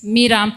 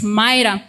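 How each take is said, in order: First: The first vowel sounds like 'ee'. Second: The first vowel sounds like 'eye'. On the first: This is the name as it is used in this book. "allow us to pronounce this name as Mira" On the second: This is the usual way to say the name. "I know the name should be pronounced as Myra"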